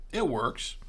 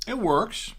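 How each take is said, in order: First: Said in the usual way. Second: Pleased, higher and louder; excited. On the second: Real, not acted. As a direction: perk up with delight. Tasting, pleased with pairing.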